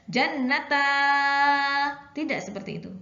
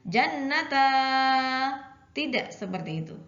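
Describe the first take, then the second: Both takes have the same delivery.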